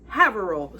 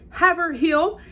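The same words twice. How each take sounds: First: It is said in the local accent. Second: It is said in an outsider's accent. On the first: The speaker calls it right. "It is Haverhill" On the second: The speaker calls it wrong. "I would pronounce as Haverhill, and I was told that is exactly incorrect"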